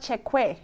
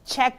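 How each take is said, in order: First: The word is said with an extra second syllable. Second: The word is said as one syllable. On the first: "why is it not Czechwe?" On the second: "It's just Czech"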